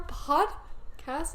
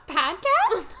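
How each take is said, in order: First: "podcast" carefully said as "POD-cast", slow; corrected podcast. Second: "podcast" said as "PAD-cast", high and loud; mispronounced podcast. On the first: Co-host correcting their own slip, slow "POD-cast" for "podcast". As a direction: sound out "podcast" with an open O in "pod". Corrects the botched word slowly. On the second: Co-host stumbling over their show's name, "podcast" as "PAD-cast". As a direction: blurt "podcast" with a short A, like "padcast". Botches the word, then corrects it. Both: Real, not acted.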